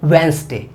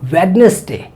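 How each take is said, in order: First: The silent letters are dropped, giving two syllables. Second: Every letter is sounded, giving three syllables. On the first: The speaker calls it right. "सही चीज़ क्या है" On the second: The speaker calls it wrong. "अब ये गलत हुआ कि नहीं हुआ"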